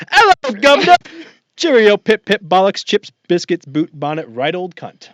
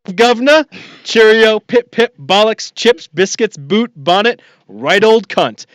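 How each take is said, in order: First: British caricature starting much higher and louder, fading back toward normal; mock British accent. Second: Hammed-up British accent, much higher and louder; mock British accent. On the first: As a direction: start as a hammed-up Brit and let it drain away. Repeats the mock British title. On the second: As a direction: overdo a posh British caricature. Mock British title read.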